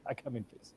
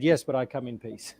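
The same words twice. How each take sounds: First: Very soft, lower, hammed-up alien greeting; mock alien voice. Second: Said in the usual way. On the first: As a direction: breathe it out like a spooky alien. Repeats the alien line after laughing.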